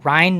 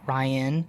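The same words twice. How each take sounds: First: The name is said as one syllable, like 'Rine'. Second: The name is said as two syllables, like 'Ryan'. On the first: This is the name spelled R Y N E. The speaker calls it right. "his first name is actually Ryan" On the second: This is the usual name spelled R Y A N. The speaker calls it wrong. "not Ryan"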